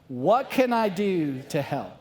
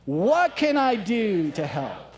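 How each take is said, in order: First: It is said plainly, with ordinary energy. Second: It is said with more passion and energy.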